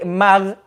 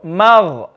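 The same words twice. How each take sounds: First: The gh sound is thin, with spread lips. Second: The gh sound is full and heavy. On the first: The speaker calls it wrong. "If we say mag, we're making the ghain smiley" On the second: The speaker calls it right. "when you go to the ghain, make it full"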